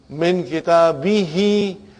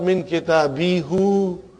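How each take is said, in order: First: The last word ends with an 'ee' vowel. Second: The last word ends with an 'oo' vowel. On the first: The speaker calls it right. "Because there is a kasra before" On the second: The speaker calls it wrong. "We don't say that"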